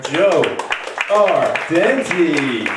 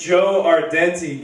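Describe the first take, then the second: First: Big, slow, drawn-out name announcement; announcer call. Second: Said in the usual way. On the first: Real, not acted. Host bringing his friend onstage, announcer call. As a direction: stretch the name out to bring on the act.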